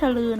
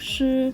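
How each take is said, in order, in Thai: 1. มีเสียง l ตามหลังเสียง ch 2. เสียง ch แบบม้วนลิ้น ไม่มีเสียง l (1) "ไม่ใช่ชลือ" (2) "คือชื่อม้วนลิ้นด้วยค่ะ"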